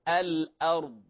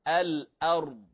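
Both takes have the same delivery.

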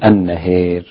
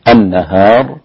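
First: The long a is tilted strongly toward e. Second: The long a is pronounced fully open. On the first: This is the reading with full vowel tilting. "ووجه الإمالة النهار هكذا" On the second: This is the reading without vowel tilting. "وجه الفتح"

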